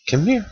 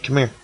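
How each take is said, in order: First: Pitched up and softer, coaxing the fish in; sing-song come here to a fish; playful high coax; high coaxing call. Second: Said in the usual way. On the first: Real, not acted.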